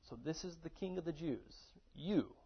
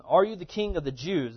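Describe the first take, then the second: First: Mocking and belittling. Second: Said in the usual way. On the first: Shown as a demonstration. Pilate mocking Jesus before him, softly belittling. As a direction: sneer down at the prisoner, half under your breath. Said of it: "it's almost mocking and belittling a little bit". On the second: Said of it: "it's almost mocking and belittling".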